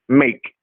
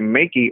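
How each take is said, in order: First: The word ends without a final vowel sound. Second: The word ends with an extra vowel sound. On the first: The speaker calls it right. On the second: The speaker calls it wrong.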